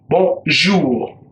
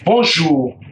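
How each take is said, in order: First: It is said slowly. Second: It is said at normal speed.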